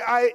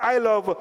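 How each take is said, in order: First: There is a pause after I. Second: There is a pause before you.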